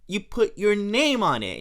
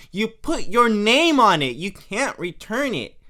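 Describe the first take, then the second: First: Said in the usual way. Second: Louder, emphatic repeat of name on it; louder Marge. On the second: Retold or imitated. Marge catching Homer out over the gift, louder. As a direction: press it home, louder. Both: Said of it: "And she goes".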